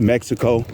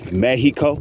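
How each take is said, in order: First: The x sound in the middle is pronounced. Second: The x sound in the middle is silent. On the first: The speaker calls it wrong. "some people say Mexico" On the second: The speaker calls it right. "the true pronunciation is Mexico. Okay, the X is silent"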